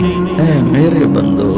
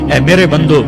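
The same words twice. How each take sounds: First: It is said in a warm, tender tone. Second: It is said in a plain, cold tone. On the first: The speaker calls it right. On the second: The speaker calls it wrong.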